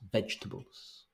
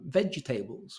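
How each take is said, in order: First: The word has three syllables, stressed on the first. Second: The word has four syllables, with a full 'table'. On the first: The speaker calls it right. "This is three syllables. All the emphasis is in the first one" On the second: The speaker calls it wrong. "fit the other words around it ... which we don't have in English"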